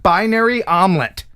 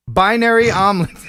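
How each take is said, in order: First: Said in the usual way. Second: Laughing through the name. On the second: Real, not acted. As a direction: crack up mid-name. Rereads name, cracking up.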